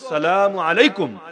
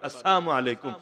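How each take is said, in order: First: The greeting is said with the 'l' sound. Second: The greeting is said without the 'l' sound. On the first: It is a prayer for peace. "সাহাবীরা শান্তির দোয়া করতেন" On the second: Its meaning becomes unclear or hostile. "ওই লামটা বাদে"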